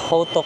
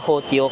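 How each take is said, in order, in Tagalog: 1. Walang y-glide ang gitnang pantig bago ang patinig. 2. May y-glide ang gitnang pantig bago ang patinig. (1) "Ang tamang pronunciation daw is hotok" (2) "Hotyok ako ng hotyok"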